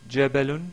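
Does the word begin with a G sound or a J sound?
J sound. The word begins with a soft j sound. This is the classical literary pronunciation. "au lieu de dire euh, jabalun"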